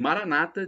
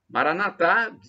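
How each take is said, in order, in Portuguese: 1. A tônica cai na penúltima sílaba. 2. A tônica cai na última sílaba. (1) "E Maranata, dizem os evangélicos" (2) "Maranatá, dizem os católicos"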